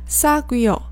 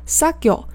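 First: Each syllable is said clearly and separately. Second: The u sound in the middle is dropped. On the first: "连起来呢是사귀어。一般来讲你在电视里面也不会听到他们把这个念得那么分开" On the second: "就是没有u 那个音，但这样是不对的"

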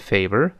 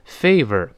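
First: The pitch rises at the end. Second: The pitch falls at the end. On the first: The speaker calls it right. "要往上升" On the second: The speaker calls it wrong. "就读成favor 不行啊，要往上升"

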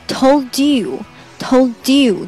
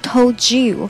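First: The t and y are separate, with a breathy release. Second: The t and y merge into a j sound. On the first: The speaker calls it wrong. "通常不会读成told you 这样有点漏气啊" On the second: The speaker calls it right. "会把它变成told you，有点像juice 那个j 的那个音"

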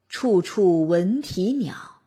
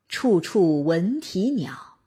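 Both takes have the same delivery.

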